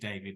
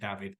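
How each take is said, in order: First: The name is said the English way. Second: The name is said the Spanish way. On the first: The person has an English or Welsh name. The speaker calls it right. "if you see an English or a Welsh name, it's going to be David" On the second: The person has a Spanish name. The speaker calls it wrong. "not David"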